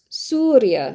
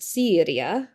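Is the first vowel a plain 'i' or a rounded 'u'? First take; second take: rounded u; plain i. First: The first vowel is rounded, like 'u'. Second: The first vowel is a plain 'i' sound. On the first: The speaker calls it right. "est Suria" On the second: The speaker calls it wrong. "non est Syria"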